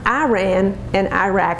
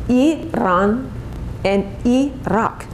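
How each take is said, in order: First: The names are said the Texan way. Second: The names are said the standard way. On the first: The speaker calls it wrong. "not Iran and Iraq, as we say here in Texas" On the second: The speaker calls it right. "It's Iran and Iraq"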